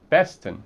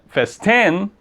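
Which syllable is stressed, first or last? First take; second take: first; last. First: The stress is on the first syllable. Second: The stress is on the last syllable. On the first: The speaker calls it right. "é a primeira aqui" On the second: The speaker calls it wrong. "se a sílaba forte fosse essa aqui, a última"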